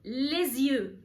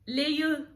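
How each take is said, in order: First: The s is pronounced and linked to the next word. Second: The s is silent before the next word. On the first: The speaker calls it right. "قلت ليزيو" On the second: The speaker calls it wrong. "ما قلتش ليو"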